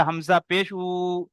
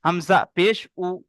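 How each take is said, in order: First: Final "উ" dragged out long; wrongly stretched vowel. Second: "উ" cut short after "Hamza পেশ"; quick, unstretched "উ"; short final vowel. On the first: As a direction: hold the "উ" at the end of "Hamza পেশ উ". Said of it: "ভুল হবে". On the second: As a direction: say the last "উ" briefly, without stretching it. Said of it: "এরকম হবে". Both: Shown as a demonstration.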